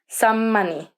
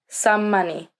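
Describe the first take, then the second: First: One lengthened m sound joins the words. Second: One lengthened m sound joins the words.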